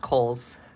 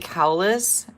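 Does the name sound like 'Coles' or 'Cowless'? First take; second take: Coles; Cowless. First: The name sounds like 'Coles'. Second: The name sounds like 'Cowless'. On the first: The speaker calls it right. "and it's Coles" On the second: The speaker calls it wrong. "I always say Cowless"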